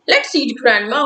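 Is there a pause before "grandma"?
no. There is no pause before "grandma".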